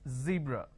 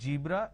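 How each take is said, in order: First: The word begins with a z sound. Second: The word begins with a j sound. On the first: The speaker calls it right. "it's zebra" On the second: The speaker calls it wrong. "The moment you replace the z with a j, it's a mispronunciation. It's not zebra"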